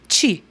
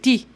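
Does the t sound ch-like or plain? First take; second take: ch-like; plain. First: The t has a ch-like hiss before i. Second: The t is plain with no hiss before i. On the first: This is how it is said in São Paulo. "Como que nós fazemos esse som aqui em São Paulo?" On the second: This is how it should be. "Deveria ser ti"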